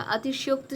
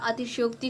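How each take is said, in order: First: अतिशयोक्त ending in "okt", no final i; wrong ending. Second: अतिशयोक्ति ending in a clear "ti"; corrected ending. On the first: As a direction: cut अतिशयोक्त off on the t. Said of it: "और युक्त नहीं होता". (अतिशयोक्त को बिना इ की मात्रा के बोलें) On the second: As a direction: finish अतिशयोक्ति on an i vowel. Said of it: "अतिशयोक्ति शब्द होता है". (अतिशयोक्ति के अंत में "ति" बोलें) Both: Shown as a demonstration.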